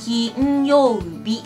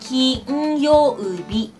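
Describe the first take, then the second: The two takes are said the same way.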